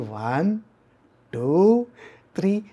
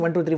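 First: The numbers are counted slowly. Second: The numbers are counted quickly. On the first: The anger fades away. The speaker calls it right. "Say that slowly" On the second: The anger keeps building. The speaker calls it wrong. "Don't say like that"

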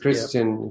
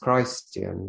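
First: The first syllable sounds like 'kris'. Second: The first syllable sounds like 'Christ'.

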